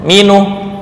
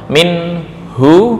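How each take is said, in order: First: The u vowel comes after the n. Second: The u vowel comes after the h. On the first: "hak harokatnya ditarik di nun menjadi dhammah, kemudian yang harokat hak asalnya dhammah diganti sukun" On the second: "minhu dibaca minuh"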